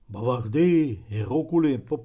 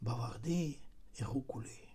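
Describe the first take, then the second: First: The phrase is said loudly. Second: The phrase is said quietly. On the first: "голосніше" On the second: "тихіше"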